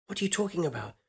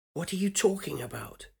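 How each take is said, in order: First: Higher voice, stress on "are"; young woman voice. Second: Higher voice, stress on "you"; "you" pressed harder in the question; young woman voice. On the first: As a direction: press "are", puzzled. First asking, stress on are. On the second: Woman repeats her question. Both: Acted.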